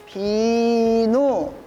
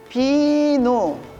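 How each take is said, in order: First: The word is said slowly. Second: The word is said faster.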